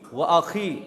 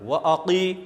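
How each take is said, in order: First: The consonant is a raspy, friction kh sound. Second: The consonant is a deep, clean q sound. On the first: The speaker calls it wrong. "ऐसा तो नहीं कर" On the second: The speaker calls it right. "खा की आवाज़ नहीं निकल रही ना"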